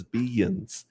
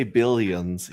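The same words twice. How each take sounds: First: "billions" as bee-yuns, without the L; imitated pronunciation. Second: Said in the usual way. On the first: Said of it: "he says billions". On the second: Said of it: "If he doesn't say billions".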